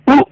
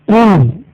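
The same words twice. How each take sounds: First: The vowel is short. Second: The vowel is drawn out long. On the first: "If it is simple Dhamma" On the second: "If it is inverse Dhamma"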